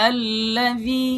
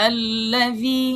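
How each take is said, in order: Both takes have the same delivery.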